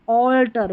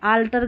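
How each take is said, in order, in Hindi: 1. पहला स्वर गोल होठों वाली 'aw' ध्वनि है। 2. पहला स्वर खुला 'aa' ध्वनि है। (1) "ऑल्टर बदलना" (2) "आल्टर गलत है"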